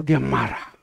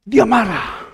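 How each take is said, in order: First: Said in the usual way. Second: DIA MARAH thrown out high and loud, then falling; high, punched “Dia marah”; dramatic exclamation. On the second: Real, not acted. Repeats it for dramatic effect.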